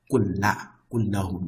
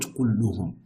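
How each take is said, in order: First: كلهم said as kullahum with a fatha, the accusative; teacher gives the right form كلهم with the a-vowel, kullahum; correct case ending. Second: كلهم said as kulluhum with a damma, the nominative; teacher shows the wrong form كلهم, kulluhum, with the u-vowel; wrong case ending. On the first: Teacher contrasting case endings, stating كلهم as kullahum. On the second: Teacher contrasting case endings, giving the wrong كلهم as kulluhum. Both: Shown as a demonstration.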